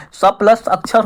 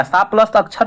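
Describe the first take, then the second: First: स said short, as "sa" with a schwa; the correct split with a short, unstretched स; short vowel in स. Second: सा said with a long open "aa"; the wrong split, with long "saa" for सा; long vowel in सा. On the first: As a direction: keep स brief, "suh", before plus अक्षर. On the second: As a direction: stretch सा to "saa" before plus अक्षर. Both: Shown as a demonstration. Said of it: "गलत हो जाएगा".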